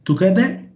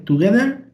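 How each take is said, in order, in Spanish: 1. El sonido final de la R se omite. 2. El sonido final de la R se pronuncia.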